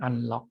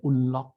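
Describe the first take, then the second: First: "unlock" starting with an open "ah", as an-lock; usual "un" pronunciation. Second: "unlock" starting with a short "oo", as oon-lock; British "oo" pronunciation. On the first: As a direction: say "unlock" with U as in "sun". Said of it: "แต่ว่ารอบหลังเนี่ยเป็น". (ออกเสียง "unlock" เป็น อันล็อก) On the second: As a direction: say "unlock" with U as in "put". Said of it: "อันเนี้ยผมได้ยินเป็น". (ออกเสียง "unlock" เป็น อุนล็อก ด้วยสระอู) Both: Shown as a demonstration.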